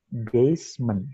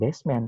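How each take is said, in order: First: The word sounds like 'base-ment'. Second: The word sounds like 'best man'. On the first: The speaker calls it right. "tapi basement" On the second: The speaker calls it wrong. "bukan basement"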